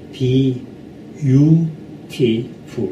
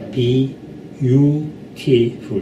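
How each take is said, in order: No difference in how they are said.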